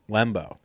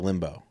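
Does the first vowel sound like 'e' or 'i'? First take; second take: e; i. First: The first vowel sounds like 'e' in let. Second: The first vowel sounds like 'i' in limb. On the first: "L-E-M-B-O. So it's Lembo" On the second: "I say Limbo ... Like L-I"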